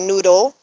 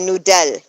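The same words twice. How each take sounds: First: It is pronounced the English way. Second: It is pronounced the German way. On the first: "in English we say noodle" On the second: "in German you say noodle"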